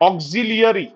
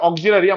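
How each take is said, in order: First: An extra 'ee' sound comes before the 'a'. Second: No extra 'ee' sound comes before the 'a'. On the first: It helps to remember the spelling. "স্পেলিংটা মনে রাখতে গেলে করতে হবে অক্সিলিয়ারি" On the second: It is how the word is normally pronounced. "অক্সিলারি আমরা উচ্চারণ করি"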